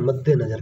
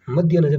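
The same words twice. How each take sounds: First: मध्य नजर said as madde nazar; मध्य नजर, first word madde, no ya; correct pronunciation. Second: मध्य नजर with a madhya ending; मध्य नजर, first word ending in -ya; wrong pronunciation. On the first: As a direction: say मध्य नजर with a doubled d and an e ending. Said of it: "क्या होता है?". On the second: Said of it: "मध्य नजर नहीं होता". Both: Shown as a demonstration.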